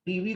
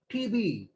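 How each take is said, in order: First: Said in the usual way. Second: "टीवी" with B replacing V, "tee-bee"; Bengali B for V. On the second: Shown as a demonstration. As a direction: say "टीवी" as a Bengali speaker lacking the V sound, "tibi". ("टीवी" को बंगाली लहजे में "टीबी" बोलें) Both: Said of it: "उस गरीब के पास वा sound नहीं है".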